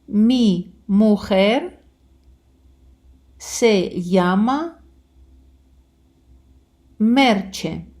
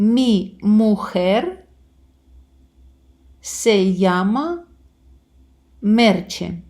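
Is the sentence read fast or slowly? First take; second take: slowly; fast. First: The sentence is read very slowly. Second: The sentence is read somewhat faster. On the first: "дуже повільно" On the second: "буду читати трошки швидше"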